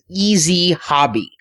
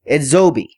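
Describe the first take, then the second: First: It is said like the words easy hobby. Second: It is said as one word, edzobi. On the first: This is the common reading of the spelling. The speaker calls it wrong. "Everybody's pronouncing this company's name as Easy Hobby" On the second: This is how the company itself says it. The speaker calls it right. "it's pronounced Edzobi"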